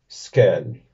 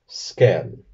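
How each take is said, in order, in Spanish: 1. La palabra se pronuncia al estilo danés. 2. La palabra se pronuncia al estilo danés.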